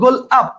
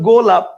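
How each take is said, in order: First: The word is broken into two separate chunks. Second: The word is said as one smooth unit. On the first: The speaker calls it wrong. "আপনি কি বলবেন গোল আপ?" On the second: The speaker calls it right. "Hundred percent আপনি বলবেন গোলাপ"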